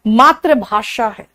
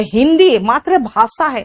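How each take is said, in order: First: मातृभाषा slowly, with a clear sh; slow, careful sh in मातृभाषा; correct sh sound. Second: मातृभाषा with a plain s, "bhaasa"; wrong s for sh. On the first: Shown as a demonstration. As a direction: say maatr-bhaa-SHA for मातृभाषा, drawn out. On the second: Retold or imitated. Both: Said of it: "बेटा, भाषा नहीं है".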